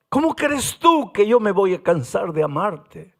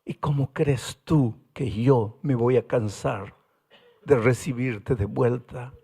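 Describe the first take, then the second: First: Firmer repeat, stress on tú; pleading voice of God. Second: Gentle voice of God. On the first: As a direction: press the question home on tú. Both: Acted. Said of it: "Y ahora Dios pregunta".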